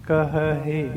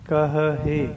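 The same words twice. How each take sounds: Both takes have the same delivery.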